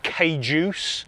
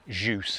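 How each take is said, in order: First: It starts with a K sound before juice. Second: It starts straight with the juice sound. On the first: The speaker calls it wrong. "a lot of people pronounce it wrong" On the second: The speaker calls it right. "Juice is how you pronounce it"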